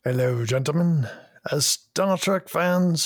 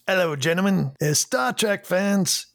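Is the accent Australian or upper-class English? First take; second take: upper-class English; Australian. First: It is said in an upper-class English accent. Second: It is said in an Australian accent.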